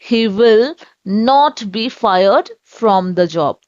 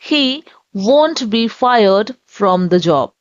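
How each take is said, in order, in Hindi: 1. 'will not' दो पूरे शब्दों की तरह बोला जाता है। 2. 'will not' एक शब्द 'won't' में कॉन्ट्रैक्ट हो जाता है।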